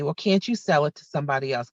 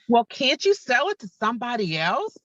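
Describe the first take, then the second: First: It is said in a calm voice. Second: It is said in an agitated voice.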